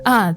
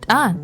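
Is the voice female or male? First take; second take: male; female. First: It is said in a put-on male voice. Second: It is said in a non-male voice.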